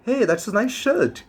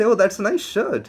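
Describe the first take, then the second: First: It sounds sincere and straightforward. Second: It sounds sarcastic and insincere.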